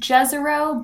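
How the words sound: The name is said in an American English way. This is how the mission team says it. "We pronounce it Jezero"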